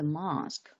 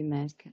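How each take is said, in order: First: It is said in a British accent. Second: It is said in an American accent. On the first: "in British way" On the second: "in the American way"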